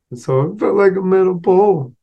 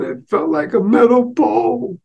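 First: Said in the usual way. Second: Put-on much higher, slow child voice; a teary kid explaining; little boy. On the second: Boy tells mother what he was hit with, high and slow.

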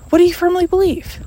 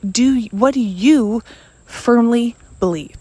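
First: Pitched high and punched; emphatic repeat. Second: Said in the usual way. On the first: Shown as a demonstration. Speaker pressing the listener, higher and emphatic. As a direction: press the question home. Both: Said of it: "repeated question".

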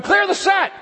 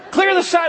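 First: High, loud call across a film set; mock crew shout. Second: High, loud call across a film set; loud, high repeated set call; mock crew shout. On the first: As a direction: yell it out like a crew boss. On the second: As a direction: bellow it to the crew again.

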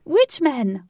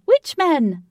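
First: High, loud, thrilled cry; squealing with excitement; excited squeal. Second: High, loud, repeated with rising glee; squealing louder still; even more excited squeal. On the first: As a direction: burst out with giddy excitement. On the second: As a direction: push the excitement further. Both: A narrator's reading. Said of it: "who was popping with excitement".

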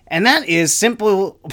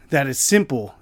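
First: Higher, louder opening push; emphatic start. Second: Said in the usual way. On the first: Real, not acted. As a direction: launch the rant with force. Restarts the line after laughing.

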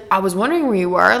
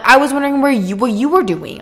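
First: Said in the usual way. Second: Higher, louder stress on "you"; indignant retort. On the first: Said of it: "And he's like". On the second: Retold or imitated. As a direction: throw it back, "you" pushed up high. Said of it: "I'm like".

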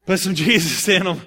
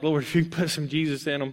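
First: Laughing through the plea. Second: Said in the usual way. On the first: Retold or imitated. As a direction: chuckle while begging for Jesus. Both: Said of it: "they're all like".

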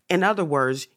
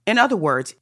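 First: Said in the usual way. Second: Higher and louder "In other words"; emphatic signpost. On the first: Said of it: "signposting a restatement". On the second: Real, not acted. Lecturer rallies the interpreters, higher and louder. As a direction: lift the phrase up high and loud. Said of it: "emphatic restatement to audience".

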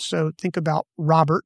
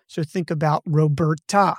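First: Robert with the first syllable ROB leaned on; Robert said ROB-ert, weight up front; stress on ROB. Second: Roberta with the middle syllable BER leaned on; stress on BER. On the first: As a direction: hit ROB in Robert, the rest light. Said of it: "You emphasize the first part of Robert". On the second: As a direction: push BER in Roberta, ends light. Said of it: "It's the B E R that's emphasized". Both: Shown as a demonstration.

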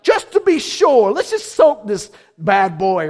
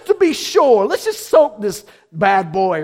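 First: Casual Elijah. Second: Loud swaggering quip; casual Elijah. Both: Retold or imitated. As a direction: toss it off like a cocky showman. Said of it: "he's like".

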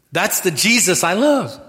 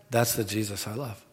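First: Loud, high preaching cry on love; full-force declaration of love for Jesus; preached out loud. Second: Soft, low restatement; quiet, tender repeat. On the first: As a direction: proclaim it to the back row. Preaching climax, repeated later softly. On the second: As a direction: bring it right down and mean it. Quiet repeat of earlier cry. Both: Acted.

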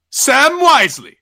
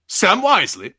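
First: Loud, high, stretched-out incredulous cry; outraged disbelief. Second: Raised-pitch disbelieving question; incredulous Lucifer. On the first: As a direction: blow up at the name, dragging it out. Lucifer repeats name, escalating. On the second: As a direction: repeat the name as if you misheard. Lucifer repeats name, disbelieving. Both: Acted.

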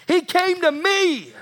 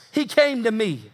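First: HE said high and hit hard; stressed he. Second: Said in the usual way. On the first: Shown as a demonstration. Preacher testifying to the church, stressing He. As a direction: lift and punch the word He.

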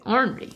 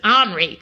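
First: "ornery" with the R sounded, "ORN-ree"; R pronounced. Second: "ornery" with the first R dropped, like "ahn-ree". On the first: Shown as a demonstration. Insisting on the proper word to the co-host, "ornery" with its R kept. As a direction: keep the first R in "ornery". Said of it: "no, you have to say ornery". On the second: Retold or imitated. Recalling how father always pronounced it, "ornery" without its R. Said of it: "he always sort of dropped the R out".

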